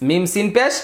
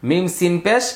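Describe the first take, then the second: The two takes are said the same way.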